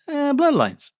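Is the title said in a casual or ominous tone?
casual. The title is said in a light, casual tone. The episode is not frightening. "It's more like"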